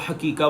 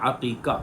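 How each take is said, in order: First: The word begins with a plain h sound. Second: The word begins with a throaty ain sound. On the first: The speaker calls it wrong. "बहुत सारे लोग इसको हकीका बोलते रहते हैं। ये इसका तलफ़्फ़ुज़ दुरुस्त नहीं है" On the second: The speaker calls it right. "इसका सही तलफ़्फ़ुज़ आइन के साथ है"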